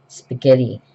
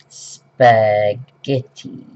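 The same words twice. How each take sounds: First: Said in the usual way. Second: Spaghetti drawn out very slowly, each syllable spelled out with a rise; sounding out spaghetti. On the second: Shown as a demonstration. Trying to spell the dish while writing, slowly sounding out Spaghetti. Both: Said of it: "Can't remember how to spell it".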